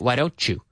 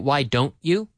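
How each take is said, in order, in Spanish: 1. Las palabras se unen suavemente. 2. Cada palabra se dice por separado, sin unión. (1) "We link it together. We normally say" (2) "We normally don't say"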